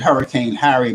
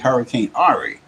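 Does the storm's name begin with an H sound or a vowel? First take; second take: H sound; vowel. First: The name begins with an H sound. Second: The name begins with a vowel sound. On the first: The speaker calls it wrong. "I pronounced it" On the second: The speaker calls it right. "but it was really"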